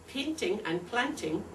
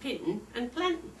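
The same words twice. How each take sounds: First: The t and the final ing are fully pronounced. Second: The t is glottalized and the final g dropped. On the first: The speaker calls it right. "When we say" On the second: The speaker calls it wrong. "it comes out as"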